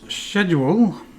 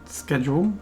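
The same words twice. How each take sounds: First: It is said in a British accent. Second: It is said in an American accent.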